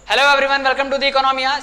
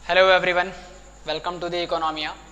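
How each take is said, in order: First: The voice sounds normal and friendly. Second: The voice sounds scary and eerie.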